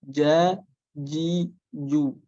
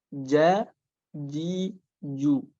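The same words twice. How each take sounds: Both takes have the same delivery.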